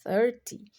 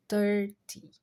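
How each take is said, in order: First: THIRTY with the tongue between the teeth; interdental TH. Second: THIRTY said with a plain T, like "turty". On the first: Teacher models THIRTY for beginners, interdental th. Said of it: "tem esse som interdental". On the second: Teacher offers learners an easier THIRTY, T-sound substitute. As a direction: swap the th of THIRTY for a hard T. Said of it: "Se você não conseguir falar". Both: Shown as a demonstration.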